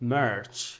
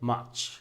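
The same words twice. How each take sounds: First: It is said in an American accent. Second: It is said in a British accent. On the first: "আমেরিকানরা বলছে" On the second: "ব্রিটিশরা বলছে"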